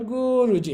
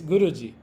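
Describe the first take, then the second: First: A short vowel is drawn out long. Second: The short vowel is kept short. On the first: The speaker calls it wrong. "It's not Guruji" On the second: The speaker calls it right. "it's Guruji. Oh, short, okay?"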